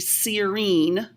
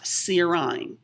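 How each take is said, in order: First: The last syllable sounds like 'een'. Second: The last syllable sounds like 'eye-n'. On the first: The speaker calls it right. "this would be serine" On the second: The speaker calls it wrong. "not serine"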